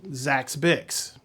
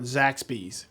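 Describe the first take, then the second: First: The name ends with a 'bix' sound. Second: The name ends with a 'bees' sound. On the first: The speaker calls it wrong. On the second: The speaker calls it right.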